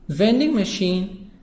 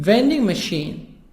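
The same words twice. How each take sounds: No difference in how they are said.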